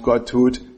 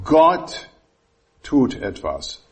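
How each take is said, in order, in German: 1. Die Betonung liegt auf dem Wort etwas. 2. Die Betonung liegt auf dem Wort Gott. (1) "bei dem nächsten Punkt" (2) "ich betone dieses Wort"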